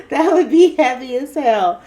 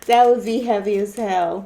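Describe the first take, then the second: First: Louder, higher, said through laughter; laughing. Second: Said in the usual way. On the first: Real, not acted. Laughing to viewers about a shared reading. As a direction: laugh it out in disbelief.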